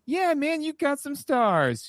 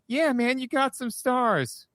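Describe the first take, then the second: First: The voice sounds excited and enthusiastic. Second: The voice sounds flat and blank. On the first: Things are going well. "he gets so jazzed" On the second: Things have turned strange and unsettling. "the tone is completely different"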